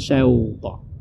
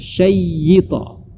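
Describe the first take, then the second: First: The first syllable has an au glide. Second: The y sound is doubled and held. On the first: "atau bahkan bukan syauta" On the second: "bukan syaita"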